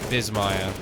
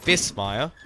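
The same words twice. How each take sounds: First: The middle consonant is a z sound. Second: The middle consonant is an s sound. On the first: The speaker calls it right. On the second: The speaker calls it wrong.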